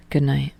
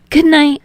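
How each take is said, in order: First: "Good night" lower and softer, lightly voiced Tsukishima; low, subdued "Good night"; Tsukishima says good night. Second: "Good night" higher and louder, lightly voiced Hinata; bright, lifted "Good night"; Hinata says good night. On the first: Tsukishima answering Hinata's good night, low and soft. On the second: Hinata saying good night to Tsukishima, higher and louder. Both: A narrator's reading.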